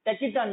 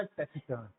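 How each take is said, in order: First: "टैकिटर्न" with a hard k sound in the middle; wrong pronunciation. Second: "टैसिटर्न" with a soft s sound in the middle; correct pronunciation. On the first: ("टैकिटर्न" में बीच में क की आवाज़, गलत उच्चारण) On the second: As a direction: say "टैसिटर्न" with s, the right way. ("टैसिटर्न" में बीच में स की आवाज़, सही उच्चारण) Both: Shown as a demonstration. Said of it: "टैकिटर्न नहीं बोलना".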